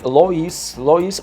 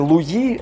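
First: The name is said as two syllables, Lo-ees. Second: The name is said as one syllable, Lwee. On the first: The speaker calls it right. "а ні, все ж таки Лоїс Опенда" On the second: The speaker calls it wrong. "я думав, що французькою буде Луї"

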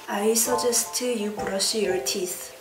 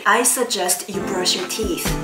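First: The vowels are said with relaxed, unspread lips. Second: The vowels are said with lips spread wide. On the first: The speaker calls it wrong. "제가 가르치는 학생들이 발음하는 식으로 문장을 읽으면은" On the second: The speaker calls it right. "입이 옆으로 쭉쭉 찢어진다는 그런 느낌으로"

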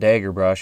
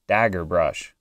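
First: It is said with a Minnesotan vowel. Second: It is said with a general American vowel. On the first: This is how the speaker naturally says it. The speaker calls it wrong. "it's not dagger brush" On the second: This is how the commenters say it should be said. The speaker calls it right. "it's dagger brush"

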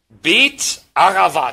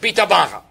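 First: The name is split into two separate parts. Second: The name is run together as one word. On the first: "das wäre richtig" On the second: "so ein zusammengezogenes Wort"

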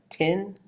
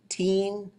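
First: The vowel is short with a high tone. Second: The vowel is long with a high tone. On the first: "short and high" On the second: "long and high"

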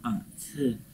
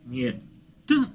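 First: The consonant is released with audible breath. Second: The consonant is a plain t without breath. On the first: The speaker calls it right. "придыхательный" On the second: The speaker calls it wrong. "многие русскоговорящие произносят его просто как «т»"

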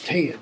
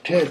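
First: The vowel glides as a Southern diphthong. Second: The vowel is a single simple vowel. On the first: "simple vowels become diphthongs" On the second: "simple vowels become diphthongs"

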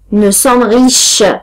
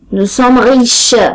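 Both takes have the same delivery.

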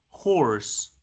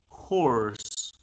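The two takes are said the same way.

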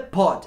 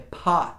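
First: The vowel is a rounded Portuguese-like o. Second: The vowel is open and close to a. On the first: The speaker calls it wrong. "não é pot" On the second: The speaker calls it right. "é pot. Perceba que tem uma diferença? ... Tem um Azinho"

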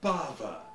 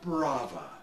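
First: The name is said without an r sound. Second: The name is said with an r sound. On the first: The speaker calls it right. "properly pronounced Bava" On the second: The speaker calls it wrong. "not Brava"

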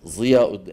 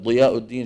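First: The first consonant is a colloquial dh-like sound. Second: The first consonant is the emphatic d-like sound. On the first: The speaker calls it wrong. "يعني شبه الضاء العامية تبعنا" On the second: The speaker calls it right. "بدل ضياء الدين"

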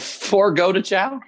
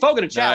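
First: The first word sounds like English 'forgo'. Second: The first word sounds like 'fogo', without 'for'. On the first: The speaker calls it wrong. "Oh, Forgo de Chow?" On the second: The speaker calls it right. "it's Fogo de Chow is the name of the restaurant"

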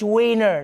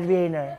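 First: The word begins with a W sound. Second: The word begins with a V sound. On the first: The speaker calls it right. "It's Wiener" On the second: The speaker calls it wrong. "not Wiener"

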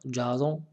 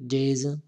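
First: The name is said with a French pronunciation. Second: The name is said with an English pronunciation. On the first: The speaker calls it wrong. "on peut prononcer en français comme Jason" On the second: The speaker calls it right. "mais il vaut mieux de prononcer comme anglais"

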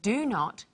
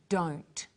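First: Two separate words are said, do and not. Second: One short word is said, with a changed vowel.

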